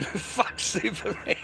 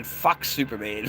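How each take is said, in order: First: Laughing. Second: Said in the usual way. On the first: Shown as a demonstration. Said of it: "laughs while repeating". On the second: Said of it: "repeats Fuck Superman".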